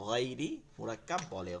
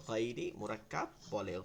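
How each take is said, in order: Both takes have the same delivery.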